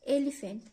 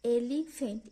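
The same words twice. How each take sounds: First: Said in the usual way. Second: "एलिफेंट" broken as एली, फेंट; a small break inside "एलिफेंट" before फेंट; split into syllables. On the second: Shown as a demonstration. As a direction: say "एलिफेंट" in two chunks, eli-fent. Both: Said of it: "दो syllable में बांट".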